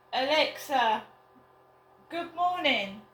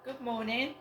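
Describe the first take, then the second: First: Raised, higher voice to a device; loud and clear. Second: Said in the usual way. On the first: Real, not acted. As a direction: call it out clearly across the room. Calling out to smart speaker.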